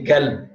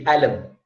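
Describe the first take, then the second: First: It starts with a G sound, Gulf style. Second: It starts with a glottal stop, Egyptian style.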